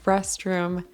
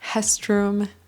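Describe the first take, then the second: First: The R is a typical English R. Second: The R sounds like a Portuguese H.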